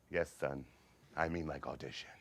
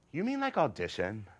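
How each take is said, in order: First: Low, quiet, resigned deadpan; weary eye-rolling father. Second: Rising, wide-eyed hopeful query; hopeful question. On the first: Father giving in to his theatrical son, wearily deadpan. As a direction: humor him with tired patience. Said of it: "My father rolled his eyes". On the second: Son asking father about tryouts, hopeful excitement. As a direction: ask as if it's showbiz. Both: Acted.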